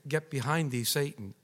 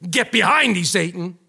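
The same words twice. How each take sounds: First: It is said calmly and politely. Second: It is said forcefully and sternly.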